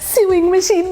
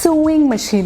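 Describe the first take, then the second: First: The first word has a 'yoo' vowel sound. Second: The first word has an 'oh' vowel sound. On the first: The speaker calls it wrong. "स्यूइंग machine नहीं होती है" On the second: The speaker calls it right. "वो सोइंग machine होती है"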